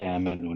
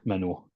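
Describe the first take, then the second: First: A long smooth vowel is heard before the m. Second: A glottal catch is heard before the m. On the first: The speaker calls it right. "we just say amanu naturally" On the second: The speaker calls it wrong. "the choking on the back of the throat"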